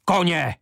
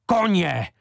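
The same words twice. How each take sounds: First: High, loud, forceful cry; fierce outcry. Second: The second "Koně!" is high, loud and falling; fierce outcry repeated. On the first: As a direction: roar it like a lion. (prudký výkřik) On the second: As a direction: hammer the word home again. (opakovaný prudký výkřik) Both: Acted. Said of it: "se proměnil ve lva".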